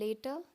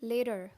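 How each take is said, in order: First: British accent, with a crisp t sound. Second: American accent, with a soft d-like sound. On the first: "British accent अगर आप बोलना चाहते हैं तो later बोलेंगे" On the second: "अगर आप अमेरिकन बोलना चाहते हैं तो आप बोलेंगे later. डी का साउंड यहाँ पर आएगा"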